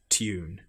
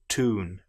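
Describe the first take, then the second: First: It is said in a British accent. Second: It is said in an American accent. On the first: "But in British English, we say tune" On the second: "in American English, for example, where they will say tune"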